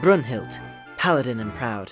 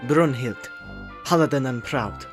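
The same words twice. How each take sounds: First: It is said in a British-sounding accent. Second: It is said in a German-sounding accent. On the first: "I'm just gonna stick with the voice I was doing" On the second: "that was kind of German"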